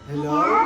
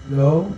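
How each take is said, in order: First: The voice is shifted to sound like a baby. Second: The voice has an echo effect. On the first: "baby girl!" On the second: "Parang echo"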